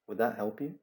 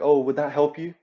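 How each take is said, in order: First: It is asked in a calm, even tone. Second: It is asked in an overdone, exaggerated tone.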